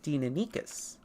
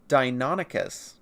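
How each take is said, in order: First: It is pronounced by the original Greek rules. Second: It is pronounced the way most people say it. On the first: "pronouncing it correctly would be Deinonychus" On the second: "the way most people do"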